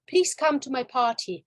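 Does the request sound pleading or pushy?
pleading. It sounds pleading and a little pathetic. The speaker seems desperate and invites pity. "It makes you um, a little bit pathetic"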